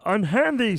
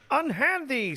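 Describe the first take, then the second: First: A put-on voice imitating a sitcom comedian. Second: A put-on voice imitating a frog puppet. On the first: "Now do a Ray Romano" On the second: "did you go good Kermit?"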